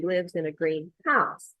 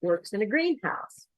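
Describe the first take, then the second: First: Green HOUSE, weight on the last word; second-part stress on greenhouse. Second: GREENhouse, first part higher, house falling away; compound stress on greenhouse. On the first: Teacher on researcher's home, greenhouse stressed on HOUSE. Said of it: "second syllable stress". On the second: Teacher on researcher's workplace, greenhouse stressed on GREEN. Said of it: "first syllable stress". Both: Shown as a demonstration.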